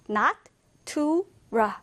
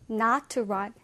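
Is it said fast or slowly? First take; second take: slowly; fast. First: It is said at a slower pace. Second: It is said at a faster pace.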